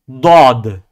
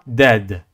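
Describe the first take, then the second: First: The letter is said heavy, with emphasis. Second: The letter is said light, without emphasis. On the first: The speaker calls it right. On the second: The speaker calls it wrong.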